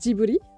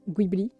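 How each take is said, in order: First: It starts with a soft 'j' sound. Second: It starts with a hard 'g' sound. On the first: "la prononciation à la japonaise, c'est Djibouti" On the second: "tu fais la prononciation à l'italienne"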